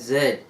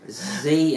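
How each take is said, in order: First: It is said as zed, British style. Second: It is said as zee, American style.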